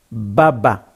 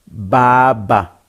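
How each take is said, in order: First: Baba with short, quick vowels. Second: Baba with its vowel drawn out long. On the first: Teacher contrasting short vowels with the long baba. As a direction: keep the vowels in Baba brief. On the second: Teacher showing students the long vowel in baba. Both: Shown as a demonstration. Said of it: "Voyelle longue".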